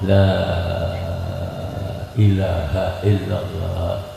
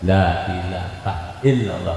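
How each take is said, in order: First: The first 'la' is held very long. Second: The first 'la' is kept short. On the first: "la pertama itu bacanya enam harokat" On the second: "enggak ada yang panjang-panjang ya cuman dua dua harokat"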